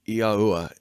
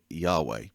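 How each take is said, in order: First: The name is said as Yahuwah. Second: The name is said as Yahweh. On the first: This is the form the speaker believes is proper. "is the way I pronounce it, and I believe it is properly pronounced" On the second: This is the form most people use. "Most say Yahweh"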